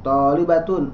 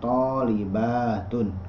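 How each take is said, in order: First: The vowel before -tun is short. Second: The vowel before -tun is long. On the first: It sounds like only one female student. The speaker calls it wrong. "salah dalam e, madnya" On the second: It means many female students. The speaker calls it right. "kalau banyak orang"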